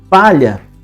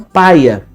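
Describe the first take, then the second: First: The middle consonant is a palatal L sound. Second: The middle consonant is a plain Y sound. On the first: This is the standard pronunciation. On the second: This is the non-standard pronunciation.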